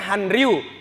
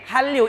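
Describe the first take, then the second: First: The two parts are said separately with an n sound. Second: The n merges into the r as a double l sound. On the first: "Harusnya kan Han Ryu" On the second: "tapi jadi Hallyu"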